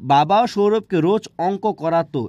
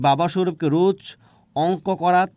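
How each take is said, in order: First: The last word ends with an 'o' vowel. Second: The last word ends on a consonant. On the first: The speaker calls it right. "এখানে কিন্তু ওকার দেওয়া হয়েছে" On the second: The speaker calls it wrong. "যদি এরকমভাবে কেউ পড়ে"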